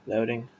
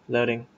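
Both takes have the same delivery.

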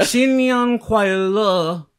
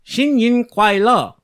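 First: Very drawn-out, high Chinese greeting; lingering attempted Chinese. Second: High, loud, slow Chinese greeting; better attempted Chinese. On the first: Cohost retries his Chinese greeting, lingering too long. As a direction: stretch the last syllable of "Xin Yang Kuai Le" far too long. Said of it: "That, that lingered a bit". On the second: Cohost shows his improved greeting, careful attempted Chinese. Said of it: "That was a lot better". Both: Shown as a demonstration.

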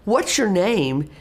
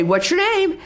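First: Slow, sincere real question. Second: High, sing-song quizzing teacher voice; testing voice. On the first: Teacher meeting a new student, sincere real question. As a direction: ask it like you truly want to know. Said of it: "ask it in a real voice". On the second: Teacher quizzing a student she knows, testing voice. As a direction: quiz them like you already know. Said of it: "in that testing voice". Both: Shown as a demonstration.

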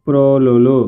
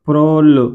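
First: ప్రోలులు in three syllables, single ల sounds; ప్రోలులు with each లు separate; ordinary undoubled pronunciation. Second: ప్రోళ్ళు with a firmly doubled ళ్ళ; ప్రోళ్ళు in two tight syllables; emphatic double consonant. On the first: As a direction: say ప్రోలులు evenly without doubling. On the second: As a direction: press on the held ళ్ళ in ప్రోళ్ళు. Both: Shown as a demonstration. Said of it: "ఇది సాధారణం పలికేస్తే".

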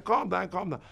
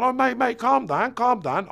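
First: Said in the usual way. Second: High, louder, pleading mate calm down; placating geezer. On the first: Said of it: "I remember him saying". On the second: Retold or imitated. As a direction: urgently try to calm an angry dad. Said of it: "The geezer's even gone".

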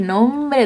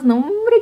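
First: Said in the usual way. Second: Much higher, rising "No, hombre"; excited exclamation. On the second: Real, not acted. Vlogger thrilled about going out for tacos, excited. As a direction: say "hombre" climbing up with glee.

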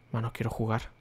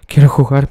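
First: Much softer, under his breath; muttered. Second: Much louder, yelled out; impatient shout. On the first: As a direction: mutter it to yourself, impatient. (murmurado con impaciencia) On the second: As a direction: yell it out, fed up with waiting. (gritando impaciente) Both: Real, not acted. Impaciente por entrar al juego.

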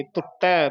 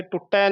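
First: ਟੁੱਟੈ with tongue on the teeth, "tut-tai"; soft dental t. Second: ਟੁੱਟੈ with retroflex t, tongue curled back; mistaken hard t. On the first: Teacher correcting the consonant, dental t. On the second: Teacher showing the error, curled-tongue t. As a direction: say ਟੁੱਟੈ as hard "TUT-tai". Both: Shown as a demonstration. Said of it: "ਟੈਂਕੇ ਨਹੀਂ ਲਾ ਦੇਣੇ".

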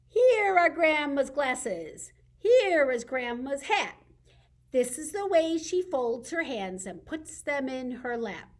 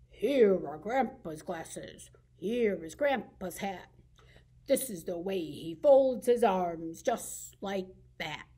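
First: Said in the usual way. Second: Grumpy grandpa. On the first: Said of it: "to make him different from grandma". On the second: Shown as a demonstration. Librarian reading to kids, voicing a grumpy grandpa. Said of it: "I usually make my grandpa grumpy in this rhyme".

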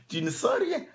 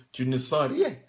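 First: Rien thrown up much higher in disbelief; incredulous echo. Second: Said in the usual way. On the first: Shown as a demonstration. Preacher mocking the idea that you feel nothing, high and incredulous.

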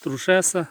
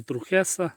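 First: "Трушеса" with a sh sound in the middle; sh pronunciation. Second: "Трухеса" with a kh sound in the middle; kh pronunciation. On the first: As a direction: say "Трушеса" with ш, as in "shess". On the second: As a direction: say "Трухеса" with х in place of ш. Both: Shown as a demonstration. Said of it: "Як правильно".

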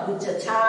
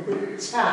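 First: गुच्छ छा split as gu-cha-chhaa; full च sound. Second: गुच्छा joined as guch-chhaa; half च sound. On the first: Teacher showing the reading to avoid, full-च pronunciation. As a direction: give च its own vowel in गुच्छ छा. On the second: Teacher correcting the split reading, half-च pronunciation. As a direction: stop short on च, then release छा in गुच्छा. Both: Shown as a demonstration. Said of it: "गुच्छ छा नहीं".

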